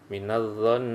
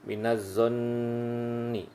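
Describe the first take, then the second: First: The word ends on a held consonant. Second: The word ends with a short final vowel. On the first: The reading stops at this word. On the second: The reading continues without stopping.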